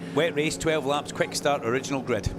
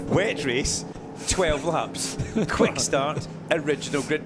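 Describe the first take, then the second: First: It is read quickly, at a rushed pace. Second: It is read slowly, at an unhurried pace.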